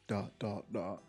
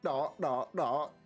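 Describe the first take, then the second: First: It is said in the speaker's normal accent. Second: It is said in a southern accent.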